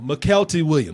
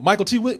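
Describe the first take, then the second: First: The first name sounds like one word, McKelty. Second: The first name sounds like Michael T. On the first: The speaker calls it wrong. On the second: The speaker calls it right. "that's how you say it"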